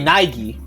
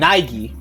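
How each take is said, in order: First: The middle vowels are blended into one sound. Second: The middle vowels are blended into one sound.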